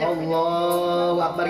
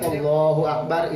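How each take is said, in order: First: The phrase is drawn out long. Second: The phrase is said short and quick.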